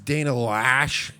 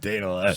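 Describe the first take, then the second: First: The surname is said to sound like 'lash'. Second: The surname is said not sounding like 'lash'. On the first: The speaker calls it right. "it's Dana Lash, according to Ben Shapiro" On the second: The speaker calls it wrong. "Now I'm saying it wrong"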